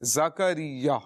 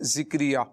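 First: The first syllable has the vowel 'a'. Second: The first syllable has the vowel 'i'. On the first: The speaker calls it right. "زا کے اوپر جو ہے زبر ہے، زکریا، یہ اس کا درست تلفظ ہے" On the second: The speaker calls it wrong. "ذکریا بعض اوقات لوگ پڑھتے ہیں ذکریا، تو وہ اردو کے اعتبار سے کہتے ہیں"

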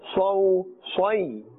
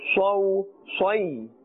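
First: The syllables are pronounced thick, with a full mouth. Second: The syllables are pronounced thick, with a full mouth.

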